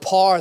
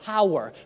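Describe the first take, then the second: First: The word is squeezed into one syllable, 'par'. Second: The word is said with two syllables, 'pow-er'. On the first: "When you say the word par, they're like, what does that mean?" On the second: "I'm like, power"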